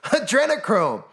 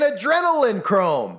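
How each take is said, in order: First: The word is said in its usual form. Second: The word is deliberately altered in pronunciation. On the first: The word is said openly without disguise. "I'll just say it adrenochrome" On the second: The word is disguised to avoid automatic detection. "I'm saying it that way so the algorithm doesn't pick it up"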